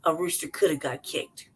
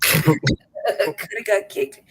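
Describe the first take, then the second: First: Said in the usual way. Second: "Coulda got kicked" stretched out very slowly; "Coulda got kicked" said slowly for comic effect; slow, drawn-out repeat. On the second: Shown as a demonstration. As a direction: savor each word of "Coulda got kicked", dragging it out.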